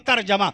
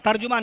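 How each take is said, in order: First: The middle vowel is pronounced as 'a'. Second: The middle vowel is pronounced as 'u'. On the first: The speaker calls it right. "सही लफ्ज क्या है? तर्जमा।" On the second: The speaker calls it wrong. "तर्जुमा ना कहिएगा, तर्जुमा नहीं"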